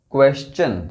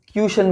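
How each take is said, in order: First: क्वेश्चन said as "kwes-chun", with "we" and "ch"; क्वेश्चन in two clear parts, "kwes" then "chun"; correct pronunciation. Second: ट्यूशन said as "kyoo-shun", with no "w" or "ch"; ट्यूशन with a "kyoo" start and a plain "sh" middle; wrong pronunciation. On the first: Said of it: "ये word है". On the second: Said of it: "जो कि गलत है". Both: Shown as a demonstration.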